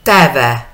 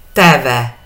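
First: Teve with a short open first e and a long closed second é; open then long e. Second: Teve again with the same short open e and long é; open then long e. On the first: Teacher models Teve for Spanish-speaking students, open e then long é. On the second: Teacher repeats Teve for students, same open e and long é. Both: Shown as a demonstration. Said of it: "La primera sin, la segunda con".

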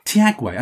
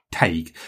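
First: Tiagwe said as tee-AG-way, pitched up in disbelief; mocking mispronunciation. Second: Tague said as TAYG, low and settled; Irish pronunciation. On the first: Host mimicking people who mangle his surname, incredulous. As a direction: imitate the wrong Tiagwe, tee-AG-way, with mock incredulity. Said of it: "I would constantly get Paul Tiagwe". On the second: Shown as a demonstration. Host giving the Irish way to say his surname, matter-of-fact. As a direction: drop the voice and give Tague as one syllable, TAYG. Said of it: "pronounce it as Tague".

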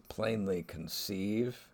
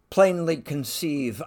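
First: "plainly conceive" said slowly with weight on "plainly"; slow emphasis. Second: A sudden loud blurt of "Plainly conceive". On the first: Shown as a demonstration. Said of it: "the Freudian slip is". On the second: Retold or imitated. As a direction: let "Plainly" burst out loud and fast, as if by accident. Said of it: "He blurts out".

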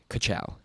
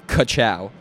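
First: Muttered under breath. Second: Punchy catchphrase delivery; catchphrase call-out. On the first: Runner finishing his private start-line ritual, muttered. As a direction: tack it on quietly, just for yourself. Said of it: "mutter under my breath". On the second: Teammate answering the pre-race chant, punchy call-out. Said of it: "another person would say". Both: Retold or imitated.

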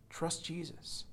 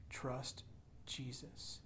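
First: Said in the usual way. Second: Soft, breathy plea to trust; almost whispered appeal; quiet whispered plea; hushed urging. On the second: Real, not acted. Pastor urging softly.

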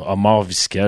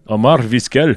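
First: Put-on Arabic accent on a Latin name; arabic accent in french. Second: Put-on heavier, higher Arabic-flavoured accent; arabic accent in french. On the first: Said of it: "Je viens de faire un accent arabe sur une voix latine". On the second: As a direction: push the Arabic accent harder on the name. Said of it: "Ça, c'est plus russe".

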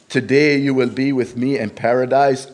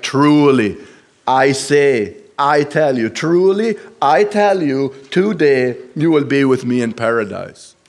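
First: Said in the usual way. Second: "Truly" and "I tell you" hit louder and higher, building on the second "truly"; a ringing, insistent promise; emphatic assurance. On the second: Shown as a demonstration. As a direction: press each "truly" hard to make it certain. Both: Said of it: "the Lord makes it a very sure".

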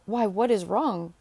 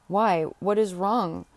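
First: Drawn-out question with a big swoop late in it; more theatrical, swooping "Why, what is wrong?"; exclaimed concern. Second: Slow, drawn-out "Why, what is wrong?"; mildly exclaimed, lingering on each word; concerned cry. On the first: Reader tries another reading of Tabaret's question, exclaimed concern. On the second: Tabaret finds Ursula changed on returning, concerned cry. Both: A narrator's reading. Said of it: "cried Tabaret".

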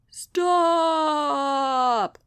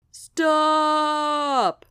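First: A long, moaning cry of stop; moaned. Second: A long, loud howl of stop. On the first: Sloth moans at Sasha to halt the bike, drawn out. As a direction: moan it out like a complaint. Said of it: "moaned Mister Sloth". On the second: Sloth howls at Sasha mid-race, long and loud. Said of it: "howled Mister Sloth". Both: Acted.

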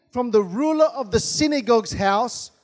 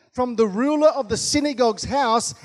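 Both takes have the same delivery.

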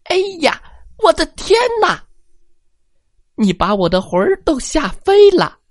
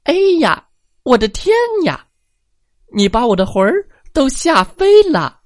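First: High, fast squeaky granny shriek; an old woman scared out of her wits; tiny old lady crying out in fright; frightened old granny. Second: High, fast squeaky granny shriek; the little old lady jumps with fright; tiny old lady crying out in fright; frightened old granny. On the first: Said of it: "喊了起来". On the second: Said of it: "她喊道". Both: Acted.

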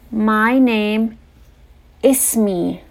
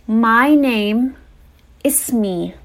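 No difference in how they are said.

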